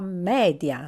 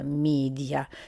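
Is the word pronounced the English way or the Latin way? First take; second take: Latin; English. First: It is pronounced with Latin-style vowels. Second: It is pronounced with English-style vowels. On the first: The speaker calls it right. "Si pronuncia media" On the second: The speaker calls it wrong. "non media"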